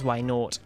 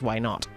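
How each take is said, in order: First: It is said with a British pronunciation. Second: It is said with an American pronunciation. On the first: "we pronounce the Pokemon as why not" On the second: "Works better if you have an American accent"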